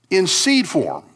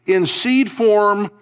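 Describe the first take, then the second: First: Said in the usual way. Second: "seed" stretched slow, higher and louder; stress on seed. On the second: Shown as a demonstration. Pastor repeating the image to the congregation, stressing "seed". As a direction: lean hard into "seed", slowly.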